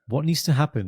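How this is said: It is said quietly and calmly. The threat feels colder and scarier. The speaker calls it right. "That's how I'd say it as well"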